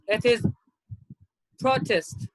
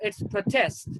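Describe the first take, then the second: First: The stress is on the first syllable. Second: The stress is on the second syllable. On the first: It is used as a noun. "as a noun" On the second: It is used as a verb. "as a verb"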